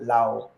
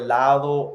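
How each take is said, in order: First: The d sound in the middle is dropped. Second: The d sound in the middle is pronounced. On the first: "they cut off D's a lot" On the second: "You have the word lado"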